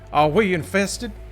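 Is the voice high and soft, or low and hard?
low and hard. The voice is lower and harder. The speaker calls it wrong.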